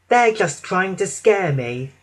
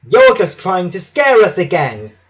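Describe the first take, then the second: First: Slightly raised, mildly brave; steady yourself, talking to yourself; brave self-reassurance. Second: Loud, raised accusing protest; indignant cry. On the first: Percy reassuring himself before the night run, mildly brave. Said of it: "he said to himself bravely". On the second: James and Percy dismissing Thomas's fright, indignant cry. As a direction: cry it out, refusing to believe. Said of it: "they cried". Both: A narrator's reading.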